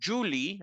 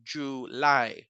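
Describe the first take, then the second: First: The stress is on the first syllable. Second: The stress is on the last syllable. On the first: The speaker calls it wrong. "It's not Julie" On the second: The speaker calls it right. "Now we have it at the end"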